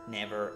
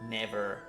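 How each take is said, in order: The two takes are said the same way.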